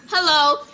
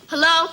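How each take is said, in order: First: It is said in a nice tone. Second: It is said in a rude tone.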